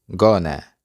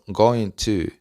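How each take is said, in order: First: The words are reduced and blended together. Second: Both words are pronounced fully and separately.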